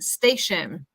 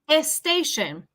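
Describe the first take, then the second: First: The word starts directly with a strong s. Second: An extra vowel is added before the s. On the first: The speaker calls it right. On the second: The speaker calls it wrong.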